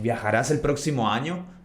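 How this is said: It is said with questioning intonation. It asks whether someone will travel next year. "with the inflection in the voice"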